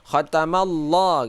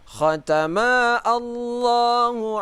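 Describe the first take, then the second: First: The two words run together without a break. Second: A glottal stop separates the two words. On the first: The speaker calls it right. "khatamallah kita baca" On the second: The speaker calls it wrong. "bukan khatama Allahu ala. Nah, tidak demikian"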